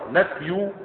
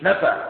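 First: The word is read as the noun nafy. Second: The word is read as the verb nafa. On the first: It is a noun, the subject of the sentence. The speaker calls it right. "نفي دي مبتدأ" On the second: It would be a past-tense verb. The speaker calls it wrong. "مش نفى"

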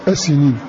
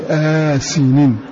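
First: The first vowel is said short, without lengthening. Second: The first vowel is said long, with lengthening. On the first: This is the reading of one particular reciter. "بلا مد" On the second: This is the reading of the remaining reciters. "قرأوا بمد"

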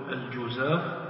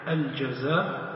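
First: The first vowel is a rounded u sound. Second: The first vowel is an open a sound. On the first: "يجوز أن تنطق بالضم تقول الجزاف" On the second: "ويجوز فيها الفتح الجزاف"

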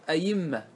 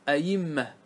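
First: The second hamza is softened to a y sound. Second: The same.

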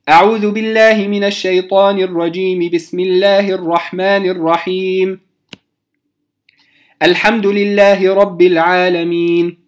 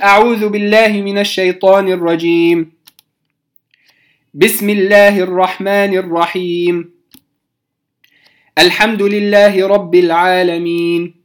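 First: The first two phrases join, then a pause follows. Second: A pause comes after each of the three phrases. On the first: "وصلت الاستعاذة بالبسملة ووقفت، ثم بدأت بالحمد لله رب العالمين" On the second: "قطعت بين الاستعاذة والبسملة، ثم بين البسملة وأول الفاتحة"

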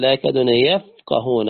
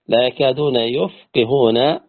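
First: The verb is pronounced yafqahun, with a and a. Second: The verb is pronounced yufqihun, with u and i. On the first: They cannot understand the speech of others. "على القراءة الأولى" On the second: They cannot make others understand their speech. "بضم الياء وكسر القاف"

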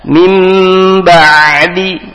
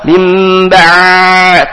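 First: The ain sound has medium length and force. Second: The ain sound is drawn out far too long. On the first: The speaker calls it right. "tapi tawasud tengah-tengah" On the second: The speaker calls it wrong. "terlalu panjang rohawa"

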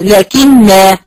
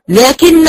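First: The word ends in a long vowel, the alif sounded. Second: The word ends in a short vowel, the alif dropped. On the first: The reader stops on this word. "لو وقفت" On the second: The reading continues without stopping. "وانا بقرأ كده في الوسط كأنه بيقع منه"

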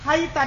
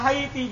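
First: The word ends in an a vowel. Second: The word ends in an i vowel. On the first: "Haita dibaca fathah" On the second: "Wa haiti bil kasri"

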